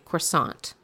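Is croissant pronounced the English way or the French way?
English. The word is said with an English pronunciation. It is treated as an everyday English word. "you say croissant because that's something that we use in our everyday vernacular"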